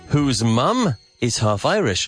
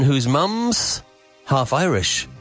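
First: "Mum is" is said as two full words. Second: "Mum is" is contracted to "mum's".

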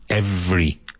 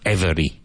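First: The word is said with two syllables. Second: The word is said with three syllables. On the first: The speaker calls it right. "Two syllables" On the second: The speaker calls it wrong. "And not every"

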